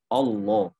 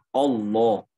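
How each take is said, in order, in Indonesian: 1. Vokal pertama terdengar membulat, seperti o. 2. Vokal pertama terdengar membulat, seperti o.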